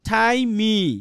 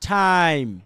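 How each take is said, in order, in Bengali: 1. m-এর পরে একটি অতিরিক্ত স্বরধ্বনি উচ্চারিত হয়। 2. শব্দটি m দিয়ে শেষ হয়, পরে কোনো স্বরধ্বনি নেই। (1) "যদি ইর উচ্চারণ করতাম আমরা তাহলে উচ্চারণ কি হইতো" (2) "আমি কিন্তু ইর উচ্চারণটা করি নেই"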